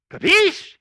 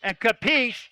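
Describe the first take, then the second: First: Capiche called out high and loud, rising at the end. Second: Said in the usual way. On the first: Shown as a demonstration. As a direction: fire capiche at the crowd as a question. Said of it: "I'll look at you and I'll go". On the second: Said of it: "when I want you to understand something".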